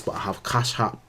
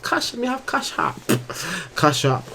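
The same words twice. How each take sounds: First: Said in the usual way. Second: Put-on high playful Jamaican accent, louder. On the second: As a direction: lean into a Jamaican patois lilt. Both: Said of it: "my Jamaican accent coming out".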